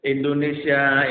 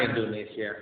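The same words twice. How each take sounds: First: Loud slow cry of Indonesia; drawn-out loud appeal; lament call. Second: Soft, sinking repeat of Indonesia; quiet sorrowful echo. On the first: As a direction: call out to the country. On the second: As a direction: let it fall away. Echoing repeat dropped soft. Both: Real, not acted.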